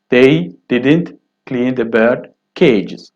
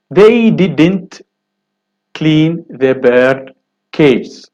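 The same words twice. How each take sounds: First: Said in the usual way. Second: Very slow, clean stretched out; slow careful reading. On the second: Shown as a demonstration. Teacher reading the first exercise sentence very slowly. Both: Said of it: "first sentence".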